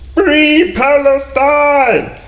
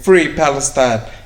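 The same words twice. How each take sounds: First: It is said in a put-on, acted voice. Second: It is said in his normal reading voice.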